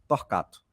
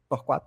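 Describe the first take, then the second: First: The middle syllable is said with a 'ka' sound. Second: The middle syllable is said with a 'kwa' sound. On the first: The speaker calls it right. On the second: The speaker calls it wrong. "Torquato não"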